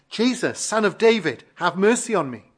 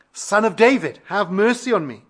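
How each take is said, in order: First: Blind beggar's plea, raised pitch in a preacher's reading; crying out. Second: Louder, higher imitation of the beggar's insistent plea; crying out harder. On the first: Retold or imitated. Blind beggar calls to passing Jesus for mercy, crying out. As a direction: mildly imitate a beggar calling for mercy. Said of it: "and he cried out". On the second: Hushed beggar calls to Jesus all the more, crying out louder. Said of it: "he cried out all the more".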